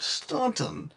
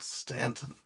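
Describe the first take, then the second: First: The first syllable has an 'aw' vowel. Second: The first syllable has a short 'a' vowel. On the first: This is how the Virginia town says it. "in Virginia there's a town like this and they call it Staunton" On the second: This is how people elsewhere would expect it. "elsewhere in the country, the pronunciation should be expected to be called Stanton"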